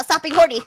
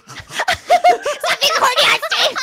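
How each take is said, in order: First: Said in the usual way. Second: High, drawn-out laughing protest; laughing scolding. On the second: Real, not acted. Scolding co-host on stream, laughing helplessly. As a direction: scold while cracking up. Same scolding, now cracking up.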